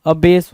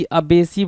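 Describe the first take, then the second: First: अबेस ending on a plain "s"; correct pronunciation. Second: अबेसी with an extra "ee" ending; misspelt reading. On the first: Teacher corrects the word for students, अबेस ending on "s". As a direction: say अबेस in two syllables, a-BASE. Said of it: "अबेस होगा". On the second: Teacher reads the misspelling to students, अबेसी with a final "ee". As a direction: sound out अबेसी in three syllables, ending in "see". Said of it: "अबेसी बोल रहा है भाई". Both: Shown as a demonstration.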